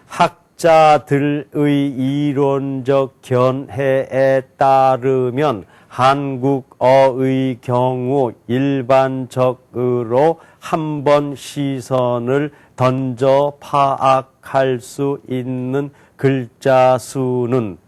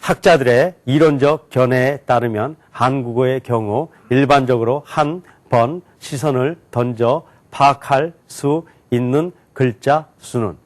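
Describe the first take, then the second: First: It is read slowly, one syllable at a time. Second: It is read at moderate speed, word by word. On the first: "한자 한자씩 또박또박 읽겠습니다" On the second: "단어로 읽어볼게요"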